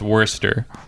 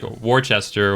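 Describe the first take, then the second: First: The name is pronounced in a shortened form. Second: The name is pronounced as it is spelled. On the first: The speaker calls it right. "but it's Worcester" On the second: The speaker calls it wrong. "it looked to me like Worcester or whatever"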